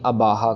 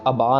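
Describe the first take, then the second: First: An extra vowel follows the final h. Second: The word ends on a vowel with no h. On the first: "ना ही अबाहा कर दें" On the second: "हम फिर से अबा ना कर दें"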